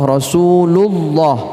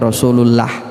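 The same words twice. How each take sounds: First: The L in Allah is heavy and full. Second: The L in Allah is thin and light. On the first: The speaker calls it right. "Contoh Rasulullah" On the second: The speaker calls it wrong. "tidak boleh dibaca Rasulullah"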